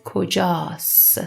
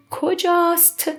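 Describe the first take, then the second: First: "کجاست" ending on s, no t; silent final ت. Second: Said in the usual way. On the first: Shown as a demonstration. Teacher showing spoken Persian, "کجاست" said without its final t. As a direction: drop the last t of "کجاست". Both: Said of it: "We don't pronounce ت".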